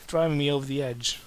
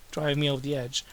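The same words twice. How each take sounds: The two takes are said the same way.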